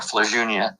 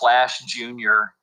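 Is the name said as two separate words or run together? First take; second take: run together; separate. First: The two words are run together into one. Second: The two words are said separately and fully. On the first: This is the name as it is used now. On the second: This is the name's original form.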